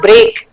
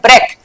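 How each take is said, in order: First: It has a long vowel, like 'brake'. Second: It has a short vowel, like 'breck'. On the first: The speaker calls it wrong. "This is not ब्रेक" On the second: The speaker calls it right. "इसका pronunciation है ब्रेक"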